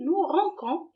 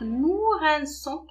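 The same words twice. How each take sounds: First: The c sounds like a k. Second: The c sounds like an s. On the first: The speaker calls it wrong. "Sinon, on va la prononcer nous rinçons et ça ne se lit pas" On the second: The speaker calls it right. "on a remplacé C par cécédile"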